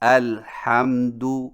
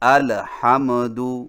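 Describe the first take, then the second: First: The silent consonant is held still without vowel. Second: The silent consonant is shaken with a vowel trace.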